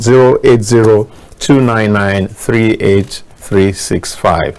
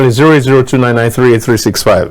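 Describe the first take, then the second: First: The number is read slowly. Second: The number is read quickly.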